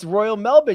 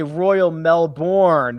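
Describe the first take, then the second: First: It is said the Australian way. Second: It is said the American way.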